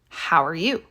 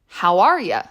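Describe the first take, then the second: First: The stress falls on the last word. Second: The stress falls on the middle word. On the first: "The emphasis is on you" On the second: "the emphasis might change to are, and the you might change to y"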